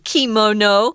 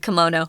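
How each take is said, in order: First: It has a Japanese-style pronunciation. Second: It has an American English pronunciation. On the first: "We don't say kimono" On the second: "we just say kimono"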